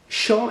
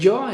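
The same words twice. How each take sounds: First: It is said the Argentine way. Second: It is said the speaker's own, non-Argentine way. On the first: "Cuando vayas a Argentina notarás un yo" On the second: "en lugar de yo"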